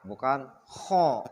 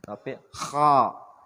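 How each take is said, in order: First: The vowel is rounded, sounding like o. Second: The vowel is open, sounding like a. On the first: The speaker calls it wrong. "Mangap, bukan kho" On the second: The speaker calls it right.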